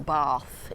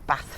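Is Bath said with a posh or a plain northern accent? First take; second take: posh; northern. First: Bath is said with a posh accent. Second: Bath is said with a plain northern accent.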